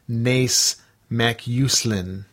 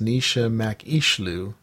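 First: The name is read the way it is spelled. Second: The name follows Gaelic pronunciation. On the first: The speaker calls it wrong. "I'm going to pronounce it phonetically. The way it's spelled is" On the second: The speaker calls it right. "the Gaelic spelling is pronounced"

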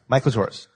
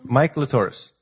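First: It is said quickly, running together. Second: It is said at a normal speed.

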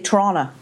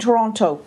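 First: The second t is dropped. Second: The second t is clearly pronounced.

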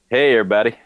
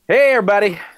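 First: The greeting sounds sad and downcast. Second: The greeting sounds neutral and ordinary.

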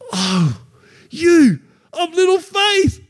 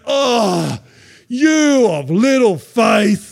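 First: It is said warmly and encouragingly. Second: It is said with scorn and disappointment.

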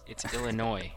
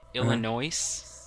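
First: The final S sound is silent. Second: The final S sound is pronounced. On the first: The speaker calls it right. "There's no pronouncing the S on Illinois" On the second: The speaker calls it wrong. "There's no pronouncing the S on Illinois"

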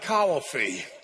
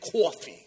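First: Coffee is drawn out Southern-style into three syllables. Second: Coffee is said in a New York Brooklyn accent. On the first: The speaker is from the South. "You get like three syllables out of it" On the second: The speaker is from Brooklyn. "people in Brooklyn ... when you hear someone say it like that, you know where they're from"

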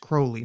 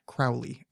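First: The name rhymes with holy. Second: The name does not rhyme with holy. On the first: The speaker calls it right. "I just want to say his name is Crowley" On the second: The speaker calls it wrong. "not Crowley"

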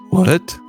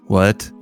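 First: It is said with strong emotion. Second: It is said with less emotion.

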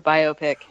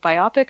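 First: The word is said as bio plus pic. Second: The word is not said as bio plus pic. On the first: The speaker calls it right. "It's a biographical picture, so let's say biopic" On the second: The speaker calls it wrong. "The first way that you said it was not correct"

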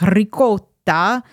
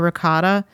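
First: It is said in a put-on, affected way. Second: It is said in a plain, everyday way. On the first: This imitates a celebrity chef's showy pronunciation. "I'm not going to be like Giada De Laurentiis and be like ricotta" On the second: This is how the speaker naturally grew up saying it. "That's how I grew up saying it. I say ricotta"

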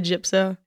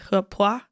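First: The name is said with an English-style pronunciation. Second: The name is said with a Swedish-style pronunciation. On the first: This is how English speakers usually say the name. "but I say Jupso" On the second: This is how the name is said natively. "it's like some kind of pronunciation we can't make"

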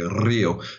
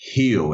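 First: The R at the start is rolled. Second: The start is a breathy H sound. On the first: The speaker calls it wrong. "They don't roll the R like a Spaniard and say Rio" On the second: The speaker calls it right. "They actually say Rio. It's a sort of aspirated H sound"

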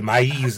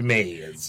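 First: The name is pronounced with Spanish sounds. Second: The name is pronounced like the English word. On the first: The speaker calls it right. "It's maize" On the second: The speaker calls it wrong. "not maize"

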